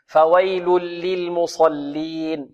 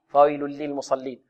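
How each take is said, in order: First: Slow "فويل للمصلين", every L given its time; unhurried recitation. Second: "فويل للمصلين" run through lightly, softer, lams barely held; snatched, hurried. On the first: Teacher modelling careful reading for students, slow recitation. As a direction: stretch "فويل للمصلين" out letter by letter. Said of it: "يحذر القارئ من خطفها". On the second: Teacher showing what readers must avoid, hurried recitation. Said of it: "من خطفها والإسراع فيها". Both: Shown as a demonstration.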